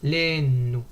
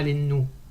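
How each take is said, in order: First: The stress is drawn out on the first syllable. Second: The stress falls on the last syllable. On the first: The speaker calls it right. "on va traîner sur le les nous" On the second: The speaker calls it wrong. "Et pas"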